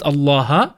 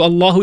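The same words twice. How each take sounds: First: Allaha with a clear final a; Arabic ending -a. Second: Allahu with a clear final u; Arabic ending -u. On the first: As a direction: end Allaha on an open a vowel. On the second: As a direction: end Allahu on a distinct u vowel. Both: Shown as a demonstration. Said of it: "instead of Allahu, it becomes Allaha".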